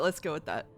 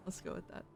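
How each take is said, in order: First: Said in the usual way. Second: Soft unvoiced whisper take. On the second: Shown as a demonstration. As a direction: breathe it as a whisper. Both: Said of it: "repeats line in varied takes".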